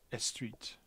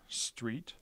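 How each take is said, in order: First: An extra vowel is added at the start. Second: No extra vowels are added to the word. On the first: "a Spanish speaker might pronounce street as estreet" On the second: "Here's an English word"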